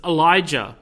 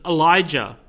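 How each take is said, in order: First: The name is said with an English pronunciation. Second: The same.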